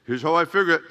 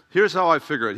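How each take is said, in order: First: Lightly imitated Mexican accent. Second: Said in the usual way. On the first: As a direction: put on a slight Hispanic accent. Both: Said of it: "he's got this Mexican accent too".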